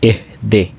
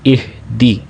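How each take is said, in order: First: The vowels are the mid 'eh' and 'ay' sounds. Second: The vowels are the high 'i' and 'ee' sounds. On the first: The speaker calls it wrong. "मजहूल पढ़ते हैं ... ये मजहूल तरीका है" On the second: The speaker calls it right. "सही मारूफ तरीका क्या है? ... हमज़ा ज़ेर ए, दाल ज़ेर दी"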